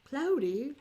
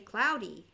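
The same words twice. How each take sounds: First: The first vowel differs from the vowel in 'howdy'. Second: The first vowel matches the vowel in 'howdy'. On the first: "if you go to London and you say" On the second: "We say cloudy, like howdy"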